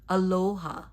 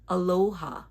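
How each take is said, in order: First: The O is drawn out like English 'low'. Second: The O is drawn out like English 'low'.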